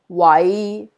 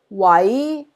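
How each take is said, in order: First: It is said with Cantonese tone five. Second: It is said with Cantonese tone two.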